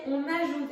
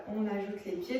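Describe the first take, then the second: First: "ajoute" leaned on with a falling accent; stress on ajoute. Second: Said in the usual way. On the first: Shown as a demonstration. Workshop teacher adding the feet, stressing "ajoute". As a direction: insist on the word "ajoute". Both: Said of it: "et je dis bien on ajoute".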